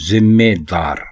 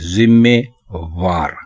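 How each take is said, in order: First: The last syllable begins with a 'd' sound. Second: The last syllable begins with a 'v' sound. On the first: The speaker calls it right. "दुरुस्त लफ्ज है" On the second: The speaker calls it wrong. "वो दार की बजाय वार इस्तेमाल करते हैं"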